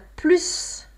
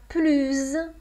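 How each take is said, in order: First: The final s is sounded as s. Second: The final s is sounded as z. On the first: "On a plus quand il y a un nom ou un verbe" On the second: "on a plus quand on a un adjectif ou un adverbe qui commence par une voyelle"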